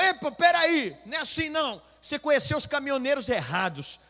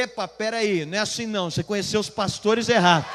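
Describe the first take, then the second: First: High, loud indignant objection; imitated angry protest. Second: Emphatic comeback. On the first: Trucker objecting to the pastor's insult, high angry protest. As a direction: act out a man getting riled, voice raised high. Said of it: "O cara foi ficando bravo". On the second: Retold or imitated. Pastor turning the trucker's words back on him, loud firm comeback. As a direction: throw the protest straight back, forcefully.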